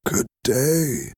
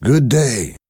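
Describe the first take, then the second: First: Higher, softer, feeble greeting; weak voice. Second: Higher, ringing greeting; hearty greeting. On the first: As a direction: answer faintly like a broken old man. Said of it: "replied in a weak voice". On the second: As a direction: greet him brightly. Defarge greets the prisoner. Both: Acted.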